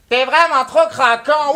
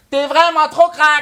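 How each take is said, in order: First: Slow, drawn-out mock Québécois accent; mock a Montreal girl in a Québécois accent. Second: Mock Québécois accent on the callback line. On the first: French rapper quoting a Montreal blonde, mocking her Québécois accent. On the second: French rapper quoting the rival's mother, mocking her Québécois accent. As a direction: throw back the Montreal girl's line in a Québécois accent. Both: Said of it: "C'est quoi cet accent de merde".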